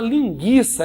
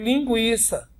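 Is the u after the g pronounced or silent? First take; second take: silent; pronounced. First: The u after the g is silent. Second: The u after the g is pronounced. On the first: The speaker calls it wrong. "Você não deve nunca falar linguiça" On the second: The speaker calls it right. "existe situação em que o U esteja junto do G e é pronunciado? Sim"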